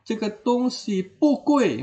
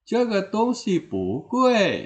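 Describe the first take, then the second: First: The word bu has a falling tone. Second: The word bu has a rising tone. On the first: The speaker calls it wrong. "agak kurang ya bunyinya" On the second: The speaker calls it right. "bunyinya menjadi bagus kedengarannya"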